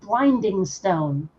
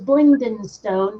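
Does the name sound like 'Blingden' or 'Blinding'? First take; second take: Blinding; Blingden. First: The first part sounds like 'Blinding'. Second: The first part sounds like 'Blingden'. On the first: The speaker calls it wrong. "not Blinding Stone" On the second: The speaker calls it right. "the name of that particular town in the Underdark is Blingdenstone"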